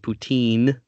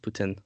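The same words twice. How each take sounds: First: The word is pronounced with an English accent. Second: The word is pronounced with a French accent. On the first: The speaker calls it wrong. "English people can't pronounce French words, so they say poutine, which makes me want to throw up" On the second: The speaker calls it right. "but the proper pronunciation is poutine"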